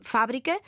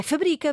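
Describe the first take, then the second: First: "fábrica" with the stress on the first syllable FÁ. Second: "fabrica" with the stress on the middle syllable BRI. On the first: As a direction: say "fábrica" as the noun, FÁ-bri-ca. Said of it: "indica a sílaba tónica". ("fábrica" com a sílaba FÁ tónica) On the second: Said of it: "não tiver acento agudo na palavra fabrica". ("fabrica" com a sílaba BRI tónica) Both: Shown as a demonstration.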